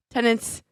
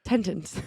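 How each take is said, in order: First: "Tenants" cleanly as "ten-ants"; corrected, no extra T. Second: "Tenants" said as "tentents"; extra T. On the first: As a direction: say "Tenants" with one T at the start and end only. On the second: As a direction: slip a second T into the middle of "Tenants". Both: Acted. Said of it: "You put an extra T in there".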